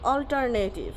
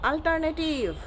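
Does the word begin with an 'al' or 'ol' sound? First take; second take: ol; al. First: The first vowel sounds like 'ol'. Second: The first vowel sounds like 'al'. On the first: The speaker calls it right. "It will be অল্টারনেটিভ" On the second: The speaker calls it wrong. "Not আল্টারনেটিভ"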